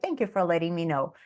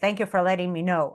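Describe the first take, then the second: First: The thanks sounds warm and friendly. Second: The thanks sounds dry and curt. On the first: Sincere thanks for the update. "So my intonation is" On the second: Curt thanks that seems annoyed. "They would read it like"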